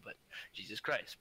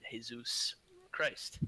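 First: Said in the usual way. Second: Slow, breathy whispered Jesus Christ; mock whisper. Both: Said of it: "I'm just messing around".

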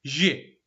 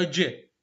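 First: جي said with a soft zh, like the s in measure; slow, drawn-out جي with a soft zh sound. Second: جي said with a hard dj, like the j in jeans; slow, deliberate جي with a hard dj sound. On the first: Teacher drilling the class on the soft zh sound. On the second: Teacher drilling the class on the hard j sound. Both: Shown as a demonstration. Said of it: "الأول جي والثاني جي".

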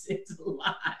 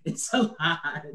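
First: Breathy whispered echo of the line; whispered repeat. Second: Said in the usual way. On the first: Real, not acted. Dad worn out by parenting, whispering it again. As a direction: let it fade into a whisper.

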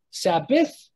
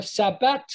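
First: "Sabbath" finishing on th; th ending. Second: "Sabbat" finishing on t, not th; t ending. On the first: Teacher contrasting final letter sounds, th ending. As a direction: say "Sabbath" with a th at the end. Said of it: "the T H at the end". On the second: Teacher contrasting final letter sounds, t ending. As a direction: say "Sabbat" with a hard t at the end. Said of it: "pronounced as a T and a T H". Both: Shown as a demonstration.

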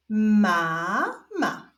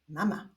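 First: Stretched first syllable, pause, then second; drawn-out, divided syllables; syllable reading. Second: Said in the usual way. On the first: Shown as a demonstration. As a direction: read it slowly as two separate syllables. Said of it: "zapraszam Was do odczytywania sylab". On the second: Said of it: "która wewnątrz została zapisana na biało".

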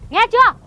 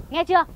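First: High, loud scolding demand; wife demands her husband listen, loud and sharp; louder demand. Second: Said in the usual way. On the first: Acted. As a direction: bark it at him.

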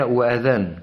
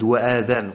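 First: وآذان with the opening vowel clearly lengthened; وآذان read with a full, drawn-out madd; correct with madd. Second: وآذان said with a short first a, no lengthening; the mistaken reading of وآذان without the madd; وآذان clipped, the opening vowel not stretched; wrong reading. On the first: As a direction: stretch the first vowel of وآذان as the correct reading. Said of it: "ننتبه حتى تقرأ بالمد". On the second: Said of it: "وهذا خطأ". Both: Shown as a demonstration.

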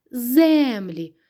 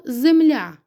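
First: Землі with a long, stressed ЗЕ; stress on first syllable. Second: Земля with a high, loud, long Я; stress on final Я. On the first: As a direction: stretch the Е in землі. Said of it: "за наголосом змінити". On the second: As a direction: punch the last syllable of земля. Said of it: "Куди падає наголос?". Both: Shown as a demonstration.

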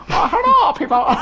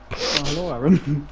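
First: High, loud greeting in a mock Chinese accent. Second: Said in the usual way. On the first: Imagining Aaron greeting people in the shop, mock Chinese accent. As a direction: burst out in an exaggerated Chinese accent. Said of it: "develop the accent with them". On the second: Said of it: "imagine just walking in the shop".

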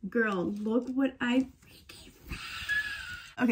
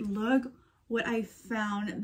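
First: Slow, hushed thrilled reveal; drawn-out giddy whisper of a find; overexcited hushed reveal; excited. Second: Said in the usual way. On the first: Real, not acted. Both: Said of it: "sorry, I got too excited".

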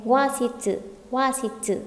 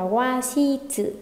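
First: "washitsu" quicker, shi closed by the t; linked sound. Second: "washitsu" slow, in open beats, wa-shi-tsu; unlinked wrong reading. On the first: Teacher gives students the recommended reading, sounds linked. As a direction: join "washitsu" as wa-shít-sư. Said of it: "mà nên nối thành". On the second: Teacher warns students off this reading, syllables kept apart. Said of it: "chúng ta không nên đọc là". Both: Shown as a demonstration.

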